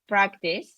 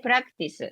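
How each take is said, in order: First: It is said with a native English accent. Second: It is said with a Japanese accent.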